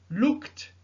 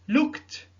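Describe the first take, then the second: No difference in how they are said.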